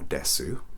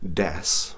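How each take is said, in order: First: The final u sound is pronounced. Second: The final u sound is dropped. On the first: The speaker calls it wrong. "or desu, as we don't call it" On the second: The speaker calls it right.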